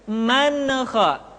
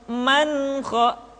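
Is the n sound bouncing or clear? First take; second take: bouncing; clear. First: The n is said with a bouncing echo. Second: The n is said clearly without a bounce. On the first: The speaker calls it wrong. "Tidak dibaca dengan man kha, suara yang dipantulkan" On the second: The speaker calls it right. "Mestinya dzalika liman kha"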